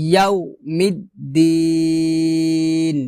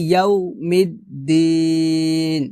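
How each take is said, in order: Both takes have the same delivery.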